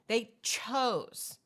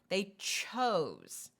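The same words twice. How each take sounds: First: The ch sound at the start is hit hard. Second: The word chose is drawn out long. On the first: "You can make it a stronger ch" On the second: "You can elongate the word"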